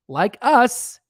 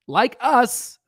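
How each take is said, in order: Both takes have the same delivery.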